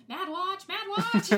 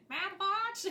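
First: High, loud, excited cry of the words; each "Mad Watch" higher and louder than the last; March Hare shout. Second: High, rising, puzzled "Mad Watch?"; light imitation with a high questioning lift; March Hare question. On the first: Retold or imitated. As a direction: yell it out like the frantic March Hare. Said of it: "The way he says it". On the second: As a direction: ask it like the March Hare, baffled. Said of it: "specifically his tone of it".

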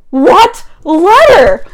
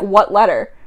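First: Very slow, loud, high-pitched shock; dramatic disbelief. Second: Said in the usual way. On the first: Acted. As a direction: stretch both words out in loud astonishment.

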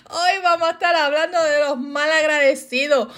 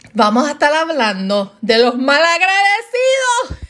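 First: Said in the usual way. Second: Hammed-up rant, building to a high shout; fired up. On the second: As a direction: announce it like you're catching fire. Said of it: "la señora Fuego se va a encender".

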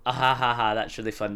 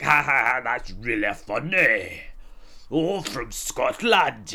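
First: Put-on ha-ha, then own-voice reply; forced polite laugh. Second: Put-on loud, drawn-out parody of a Scottish accent; mocking the accent. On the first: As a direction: feign amusement with a spoken laugh. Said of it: "And you'd be like". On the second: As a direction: echo it back slowly with loud mockery. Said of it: "They'd be like".

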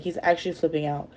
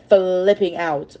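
First: Said in the usual way. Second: FLIPPING stretched out slowly; drawn-out emphasis. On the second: Real, not acted. Telling how Henry panics, "flipping" drawn out. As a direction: draw out the first sound of "flipping".

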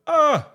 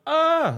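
First: High, loud mock scream; the same quick yell, much higher; demo scream again. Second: High, loud mock scream; a quick demo yell, much higher. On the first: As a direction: repeat the promo scream on request. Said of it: "Do that one more time". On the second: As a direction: show the scream from the promo. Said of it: "when I'm screaming". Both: Shown as a demonstration.

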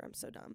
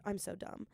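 First: Whispered, much softer; whispered example. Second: Said in the usual way. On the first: Shown as a demonstration. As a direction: whisper the put-down. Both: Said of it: "like I used an example of".

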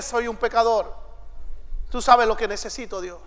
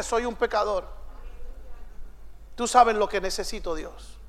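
First: Soft, hushed plea; the sinner's quiet, lowered prayer; humble sinner's prayer. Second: Soft, hushed, humble plea; a sinner's soft, low murmur to God; humble sinner's prayer. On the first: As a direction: murmur it humbly to God. Humble sinner praying again. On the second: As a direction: pray it quietly, head bowed. Humble sinner praying quietly. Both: Acted.

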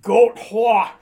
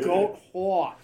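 First: Loud, high New York drawl; New York accent. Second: Lightly voiced New York accent, louder. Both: Shown as a demonstration. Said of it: "That's funny to say with my New York accent".

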